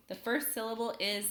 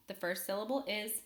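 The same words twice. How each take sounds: The two takes are said the same way.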